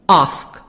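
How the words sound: It is said in a British accent.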